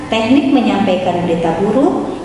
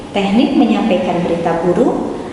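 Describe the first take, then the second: No difference in how they are said.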